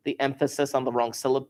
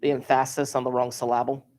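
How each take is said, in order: First: Said in the usual way. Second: "emphasis" as em-FASS-is, "syllable" as sil-LAB-le, asked as a question; wrong-syllable stress. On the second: Shown as a demonstration.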